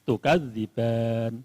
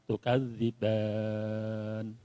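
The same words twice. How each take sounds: First: The last vowel is held for two counts. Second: The last vowel is held for four counts. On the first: "satu alif" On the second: "dua alif"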